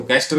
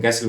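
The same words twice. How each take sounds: First: "कैस्टल" with the t sounded; "कैस्टल" as kas-tal with a clear t, the mistake to avoid; wrong pronunciation. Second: "कैसल" with a silent t; "कैसल" with the t dropped, the right way; correct pronunciation. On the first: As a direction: say "कैस्टल" with the t pronounced, as students wrongly do. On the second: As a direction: say "कैसल" as ka-sal, no t at all. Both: Shown as a demonstration. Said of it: "ये टी silent".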